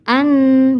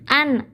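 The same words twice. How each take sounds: First: The syllable is drawn out slowly. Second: The syllable is said quickly and clearly. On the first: The speaker calls it wrong. "Gak boleh an" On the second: The speaker calls it right. "Jadi harus dibaca cepat"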